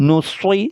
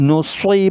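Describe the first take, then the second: No difference in how they are said.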